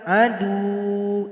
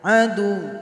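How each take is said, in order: First: The final vowel is drawn out long. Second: The final sound is pressed and kept short. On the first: The speaker calls it wrong. "Jadi jangan dipanjangkan. Adu, itu salah" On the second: The speaker calls it right. "Jadi cuma ditekan saja. Adu, cuma tasydid"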